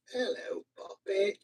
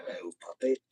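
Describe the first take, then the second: First: Very high, soft squeaky voice; high puppet greeting. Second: Low, soft put-on voice; low puppet greeting. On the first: Pretend. Host greeting a puppet, high little voice. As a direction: pitch it way up for a puppet. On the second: Host greeting a puppet, low soft voice.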